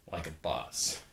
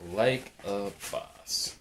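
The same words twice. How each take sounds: First: Low, soft throwaway catchphrase; said under the voice, low; quiet aside. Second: Catchphrase stretched out very slowly; half-speed, deliberate delivery; slow drawn-out repeat. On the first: Catchphrase said low, then slowed. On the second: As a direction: draw each word out, unhurried. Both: Real, not acted.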